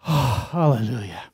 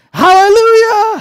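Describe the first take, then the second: First: Lowered, sighed-out relief; relieved sigh. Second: Whooped high and very loud, in delight; a joyful holler at full voice; exuberant shout. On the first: Rider saved at the edge of the drop-off, relieved sigh. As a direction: let it out on a long relieved breath. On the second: Joke's rider cheering the donkey on, exuberant shout. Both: Acted.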